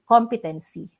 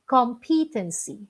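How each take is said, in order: First: The stress falls on the first syllable. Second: The stress falls on a later syllable. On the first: The speaker calls it wrong. "Ang karaniwang pronunciation dito ay competency" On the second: The speaker calls it right. "Wala po yung stress or yung diin sa unang syllable na com"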